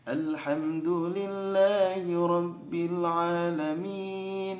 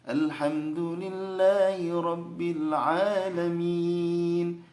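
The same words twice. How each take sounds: First: The melody drifts upward instead of staying level. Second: The melody stays level without drifting upward. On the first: The speaker calls it wrong. "nada datarnya itu lari ke nada naik ya" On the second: The speaker calls it right. "Harusnya ... Datar"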